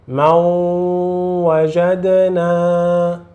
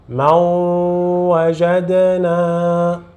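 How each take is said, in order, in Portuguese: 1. O n se funde com um w nasalizado. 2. O n se funde com um w nasalizado.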